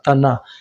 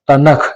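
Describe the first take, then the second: First: The final k sound is silent. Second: The final k sound is clearly pronounced. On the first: The speaker calls it right. "के साइलेंट है" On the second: The speaker calls it wrong. "ऐसा नहीं बोलना है"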